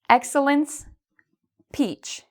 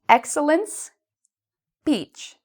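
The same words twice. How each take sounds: First: The words are split with a pause between them. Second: The same.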